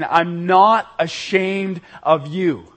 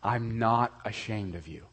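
First: Slow, louder and tender, each word held; loving voice. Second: Hushed, softer words of Jesus; a quiet, intimate reassurance. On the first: Preacher voices Jesus lovingly to the congregation, slowly. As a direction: reassure them gently but firmly. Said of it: "hear his loving voice saying". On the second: Preacher voices Jesus to the ashamed listener, softly. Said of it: "I want you to hear Jesus Christ saying to you". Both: Retold or imitated.

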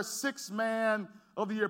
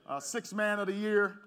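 First: Slow, emphatic list. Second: Said in the usual way. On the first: Shown as a demonstration. Pastor to congregation introducing Lou Williams, slow and emphatic. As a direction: lean on each word of sixth man of the year. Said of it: "repeats credentials slowly for emphasis". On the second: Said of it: "repeats player's credentials".

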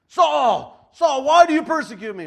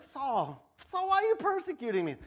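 First: Huge echoing shout from heaven; booming voice of Jesus. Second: Lightly voiced chatty Jesus, rising high at the end; casual Jesus. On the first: Retold or imitated. Preacher booming Jesus's call to Saul, a huge shout. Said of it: "I don't know how Jesus said that". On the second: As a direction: ask it like a puzzled friend. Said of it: "I don't know how he said it".

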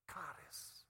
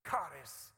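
First: "Charis" breathed as a whisper, falling. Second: "Charis" hit loud with a falling tune. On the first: Preacher savouring the Greek word, whispered. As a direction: whisper "Charis" as if it were precious. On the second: Preacher introducing the Greek word, said loud. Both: Shown as a demonstration.

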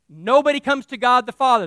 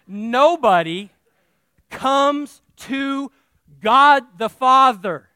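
First: "Nobody" stressed, said at normal pace and firmly; firm restatement. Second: Nobody comes to God the Father, slow and loud, every word weighted; drawn-out emphasis. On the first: Pastor repeating his point at speaking pace, firm. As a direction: say it again briskly, stress on "Nobody". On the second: Pastor hammering the point to his congregation, slow and loud. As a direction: lean hard on "Nobody" and stretch it out. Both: Shown as a demonstration. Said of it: "you know what nobody means in Greek".

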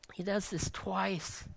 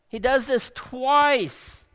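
First: Much softer, hushed first telling; quiet take. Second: Slower, stress falling hard on "twice"; emphatic repeat. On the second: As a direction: lean on "twice" and let it fall. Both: Shown as a demonstration.

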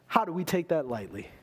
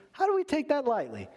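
First: Said in the usual way. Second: High-pitched, incredulous preacher's plea; impassioned challenge. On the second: Real, not acted. Preacher challenging the congregation over access to God, impassioned and high. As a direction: repeat the question much higher, astonished.

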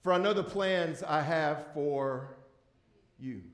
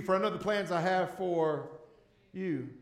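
First: Slow, deliberate scripture reading; the pastor reads the verse to the congregation slowly. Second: "you" set apart by a pause and leaned on; the pastor reads it again, pressing the word "you"; stress on you. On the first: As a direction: read the verse slowly, weighing each word. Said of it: "I'm gonna read it a little slowly". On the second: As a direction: hold a beat, then land on "you". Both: Shown as a demonstration.

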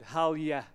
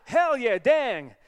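First: Unexciting take in the speaker's own accent; own non-American accent. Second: Put-on homeboy accent, loud and high; [name]. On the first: Shown as a demonstration. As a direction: say it in your own accent, without flow. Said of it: "when we say it with my accent". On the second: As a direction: shout it in an American homeboy accent. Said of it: "that homeboy accent going on".

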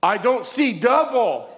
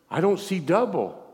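First: High, loud, slow exclamation; acted amazed outcry. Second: Higher-pitched acted disbelief; retold astonishment. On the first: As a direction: cry it out as her astonished discovery. Acts out woman's amazed repeat. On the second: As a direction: voice her first amazed realization, not yet shouting. Acts out woman discovering healing.

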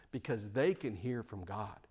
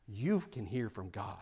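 First: Soft, with "they" leaned on lightly; a gentle push on "they"; stress on they. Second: Slow, soft, "You" pressed to the listener; stress on you. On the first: Pastor reminding the church that "they" hear God, soft stress. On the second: Pastor turning straight to the congregation, slow stress on "You". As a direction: lean on "You", slowly. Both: Shown as a demonstration.

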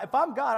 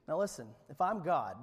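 First: Louder if I'm God. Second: Said in the usual way. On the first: Shown as a demonstration.

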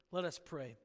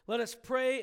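First: "Let us pray." said low and soft, falling; hushed call to prayer. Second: Said in the usual way. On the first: Real, not acted. Pastor quietly invites the congregation into prayer, hushed. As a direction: drop to a soft, reverent hush on "Let us pray.".

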